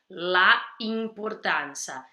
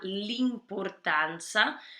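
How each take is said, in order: First: The article's vowel is kept, clashing with the next. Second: The article's vowel is dropped and joined to the noun. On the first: The speaker calls it wrong. "as duas vogais iam se chocar aí" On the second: The speaker calls it right. "a apóstrofe ali na"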